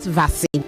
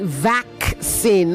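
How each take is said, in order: First: No k sound is heard before the s. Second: A k sound is heard before the s. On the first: The speaker calls it wrong. "not vaccine" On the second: The speaker calls it right. "You have to pronounce the other C"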